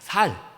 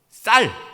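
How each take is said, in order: First: The word begins with a plain s sound. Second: The word begins with a tense s sound. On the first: The speaker calls it wrong. "경상도 사람들이 쌀 발음이 안 되잖아요. 여기 살 그러잖아요" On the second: The speaker calls it right. "쌀 발음이 안 되잖아요"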